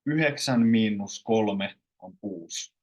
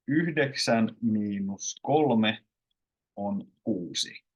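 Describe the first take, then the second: First: Everyday Finnish, "kuusi" shortened to "kuus"; colloquial pronunciation. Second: Slow standard Finnish, "kuusi" with its final i; full careful forms. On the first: Teacher gives learners the everyday version, colloquial forms. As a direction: drop the d in "yhdeksän" and the final i in "kuusi". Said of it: "all the colloquial ones". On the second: Teacher reads nine minus three to learners, full careful forms. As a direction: sound out "Yhdeksän" with its d, unhurried. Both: Shown as a demonstration.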